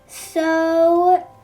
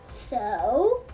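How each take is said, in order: First: It is said flat, not as a question. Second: It rises at the end like a question.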